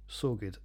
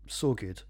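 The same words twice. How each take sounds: The two takes are said the same way.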